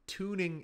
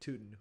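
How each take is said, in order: First: The word is said slowly and clearly. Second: The word is said quickly and slurred. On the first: The speaker calls it right. "I'm gonna say that word clearly with proper diction and pronunciation" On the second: The speaker calls it wrong. "Sometimes I say it quickly, and the word tuning kind of comes out like tootin'"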